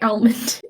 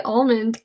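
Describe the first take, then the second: First: Almond opening on a short, front "a"; disliked variant. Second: Almond opening on a rounded "aw"; preferred variant. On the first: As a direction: say "almond" as AL-mund. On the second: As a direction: say "almond" as AWL-mund. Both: Shown as a demonstration. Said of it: "I don't like almond".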